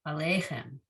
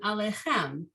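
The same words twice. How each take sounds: First: The stress is on the second syllable. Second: The stress is on the last syllable. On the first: The speaker calls it right. "I should put it on the second syllable" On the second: The speaker calls it wrong. "I mispronounced it on that second time, putting the emphasis not on, I shouldn't put it on the last syllable"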